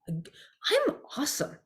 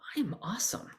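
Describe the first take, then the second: First: It is said with a confident, believing tone. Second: It is said in a flat, listing tone.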